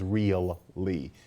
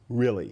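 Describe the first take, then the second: First: It is said in full as two clear syllables. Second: It is said reduced, like "rilly" with a short vowel. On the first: "We don't even pronounce it as real-ly" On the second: "It's really. It's R I L L Y"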